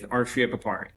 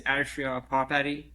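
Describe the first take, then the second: First: The name is said with American pronunciation. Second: The name is said with Persian pronunciation. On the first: "but I'm also fine with" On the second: "the correct version is"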